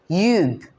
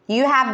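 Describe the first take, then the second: First: The words merge into one short syllable. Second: Two separate words are said in full.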